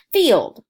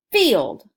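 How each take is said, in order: First: "Field" said loud as a single beat; clapped word. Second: Said in the usual way. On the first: Shown as a demonstration. Teacher clapping "Field" for young learners. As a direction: say "Field" as one clap. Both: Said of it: "One clap".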